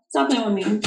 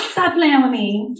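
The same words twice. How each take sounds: First: Said in the usual way. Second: Drawn out, higher, with a rising end on "Stop playing with me"; playful scolding. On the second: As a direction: tease them: stretch out the words slowly and lift the end. Second, drawn-out playful take.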